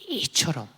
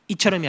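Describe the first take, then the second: First: The word is said with strong, forceful emphasis. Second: The word is said plainly, without extra force. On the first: The speaker calls it right. "이처럼을 강조해서" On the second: The speaker calls it wrong. "이처럼이 아니라"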